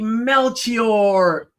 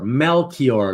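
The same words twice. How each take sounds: First: The 'ch' is said as a soft ch sound. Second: The 'ch' is said as a hard K sound.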